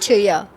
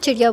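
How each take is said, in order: First: The word is said with careful, practised pronunciation. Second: The word is said in a relaxed, everyday way. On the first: This is a rehearsed way of speaking. "अगर मैं वो सब बोलूँ तो चिड़िया" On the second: This is how she really speaks. "मैं असल में बोलूँ तो मैं चिड़िया बोलूँ"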